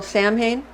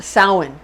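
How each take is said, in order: First: Samhain read as SAM-hayn; spelling pronunciation. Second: Samhain said as SOW-en; correct pronunciation. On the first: Showing how it looks spelled, Samhain as SAM-hayn. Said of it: "looks like it's spelled Samhain". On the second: Correcting the spelled reading, Samhain as SOW-en. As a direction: say "Samhain" in two syllables, SOW-en. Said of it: "but it's actually pro-, pro-, pronounced Samhain". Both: Shown as a demonstration.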